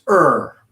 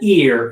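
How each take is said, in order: First: The vowel sounds like er, with no ee. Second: The vowel sounds like the word ear. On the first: The speaker calls it right. "it's er" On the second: The speaker calls it wrong. "this isn't ear"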